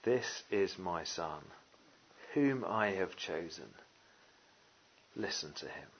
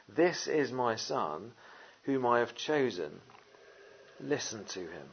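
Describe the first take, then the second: First: Slow, softer, lower solemn words; voice of God. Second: Slow, measured words from the cloud; God the Father speaking. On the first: Preacher voicing God the Father, slow and hushed. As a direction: let each word fall slowly and hushed. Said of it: "what does he say?". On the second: A hint of God the Father speaking slowly from the cloud. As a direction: let each word land slowly. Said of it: "God the Father speaks". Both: Acted.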